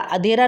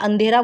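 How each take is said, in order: First: The first vowel is plain, without a nasal sound. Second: The first vowel has a nasal sound before dh. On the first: The speaker calls it wrong. "अधेरा नहीं होता" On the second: The speaker calls it right. "अंधेरा बोलते हैं ना"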